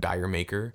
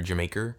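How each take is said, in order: First: It sounds like the words 'dire maker'. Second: It sounds like the word 'Jamaica'. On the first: "Because I thought it was like a dire maker" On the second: "it's like Jamaica"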